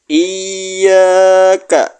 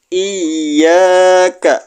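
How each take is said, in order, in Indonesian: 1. Bunyi y ditekan dan dibaca ganda. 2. Bunyi y ditekan dan dibaca ganda.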